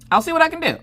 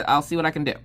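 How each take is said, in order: First: Squeaky noncommittal promise; high, strained maybe-answer; high-pitched hedging. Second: Said in the usual way. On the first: Retold or imitated. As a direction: pitch it way up, placating a child. Mom's noncommittal answer to daughter.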